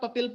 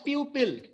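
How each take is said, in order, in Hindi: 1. पहला स्वर एक छोटा 'uh' ध्वनि है। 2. पहला स्वर 'yoo' ध्वनि है। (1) "मैंने भी इसको कई बार पपिल बोला है" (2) "as per your book it should be pronounced as pupil"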